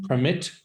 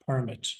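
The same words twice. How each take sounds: First: Permit stressed on the second syllable; verb stress. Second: Permit stressed on the first syllable; noun stress. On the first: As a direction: say Permit as a verb, per-MIT. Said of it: "spelt identically but pronounced differently". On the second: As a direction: say permit as a noun, PER-mit. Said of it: "your pronunciation was for the noun". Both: Shown as a demonstration.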